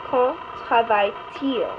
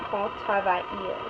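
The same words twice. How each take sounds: First: "travaille-t-il" with a clear T before il; slow and careful, sounding the T in "travaille-t-il"; correct inversion with T. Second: "travaille-il" run straight into il with no T; the mistake: "travaille-il" with no T sound; wrong form without T. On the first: Teacher models the right question slowly, T in "travaille-t-il". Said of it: "Notice the E and the I have a T between it". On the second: Teacher shows students the error to avoid, no T in "travaille-il". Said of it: "make sure that you don't say". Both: Shown as a demonstration.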